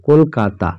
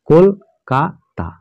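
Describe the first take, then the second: First: Said in the usual way. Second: Kolkata very slowly, as কল, কা, তা; syllable by syllable. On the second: Shown as a demonstration. Teacher counts three syllables, Kolkata split slowly as কল-কা-তা. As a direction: break Kolkata into three separated beats. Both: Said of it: "তিনটে সিলেবালের word".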